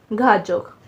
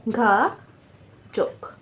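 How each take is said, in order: First: Said in the usual way. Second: घाजोक split slowly into घा, pause, जोक; teacher slowly sounding out घाजोक in two syllables. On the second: Shown as a demonstration. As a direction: draw out घा, then pause before जोक. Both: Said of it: "syllable बन रहे हैं".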